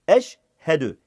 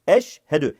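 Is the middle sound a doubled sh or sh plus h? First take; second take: sh plus h; sh plus h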